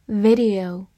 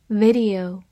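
Both takes have the same delivery.

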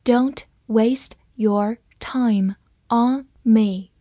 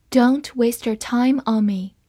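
First: Each word set apart by a pause; slow reading. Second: Said in the usual way. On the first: Shown as a demonstration. Teacher models the sentence for learners to follow, slow reading. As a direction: read it slowly, word by word. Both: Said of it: "慢慢来读".

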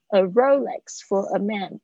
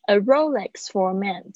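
First: "Rolex" stressed on RO, lex lighter. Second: "Rolex" with RO stressed, lex lighter. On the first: Teacher repeating the brand name with front stress. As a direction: hit RO in "Rolex". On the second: Teacher showing the brand's first-syllable stress. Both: Shown as a demonstration. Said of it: "重音是在前面".

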